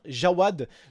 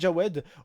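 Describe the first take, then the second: First: The second vowel sounds like 'a'. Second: The second vowel sounds like 'e'. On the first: The speaker calls it right. "au lieu de dire Jawad" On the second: The speaker calls it wrong. "je disais Jawed parce que je connais plein de Jawed"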